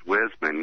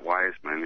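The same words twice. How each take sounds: First: "Wisman" with a short i, like wiz-man; correct pronunciation. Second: "Wiseman" with a long i, like the word wise; wrong pronunciation. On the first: Judge correcting a caller on his name: "Wisman" said wiz-man. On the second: Judge quoting the caller's mistake: "Wiseman" said wise-man. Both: Retold or imitated. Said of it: "correct me on the pronunciation of his name".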